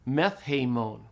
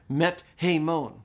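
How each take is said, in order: First: The t is aspirated into a th sound. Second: A plain t is followed by a separate h. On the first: The speaker calls it right. "The tau aspirates to a theta" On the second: The speaker calls it wrong. "It's hard, isn't it?"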